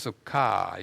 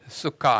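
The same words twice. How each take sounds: First: The vowel is held long. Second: The vowel is said short. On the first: The speaker calls it right. "이건 길게 발음하는 모음부가 붙었기 때문입니다" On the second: The speaker calls it wrong. "좀 수카 아니고"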